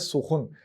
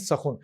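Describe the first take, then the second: First: The first syllable has a 'u' vowel. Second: The first syllable has an 'a' vowel. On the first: "सीन पर पेश, खे पर पेश और नून साकिन" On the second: "सीन पर जबर, खे पर पेश और नून साकिन"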